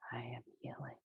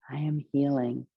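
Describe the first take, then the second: First: The phrase is whispered without full voice. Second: The phrase is spoken aloud in a full voice. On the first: "Might whisper it" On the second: "First level is vocal"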